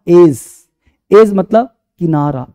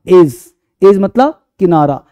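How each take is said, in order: No difference in how they are said.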